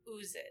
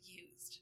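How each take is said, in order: First: The word begins with a plain 'oo' sound. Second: The word begins with a 'yoo' sound. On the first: The speaker calls it wrong. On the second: The speaker calls it right.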